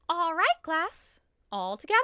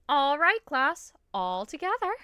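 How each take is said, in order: First: The put-on voice is higher pitched. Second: The put-on voice is deeper pitched. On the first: The speaker calls it wrong. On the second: The speaker calls it right.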